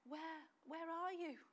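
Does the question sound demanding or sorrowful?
sorrowful. The question sounds sad and longing. The one asking feels a painful loss. The speaker calls it right. "The tone is"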